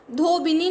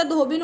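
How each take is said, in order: First: धोबिनी with an extra final 'ee'; wrong pronunciation. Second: धोबिन ending on a bare 'n'; correct pronunciation. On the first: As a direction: end धोबिनी on a nee syllable. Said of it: "नहीं होता". (धोबिनी के अंत में 'नी' बोलें) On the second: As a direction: stop धोबिन at the n, no ee. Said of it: "होता है". (धोबिन को अंत में 'ई' के बिना बोलें) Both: Shown as a demonstration.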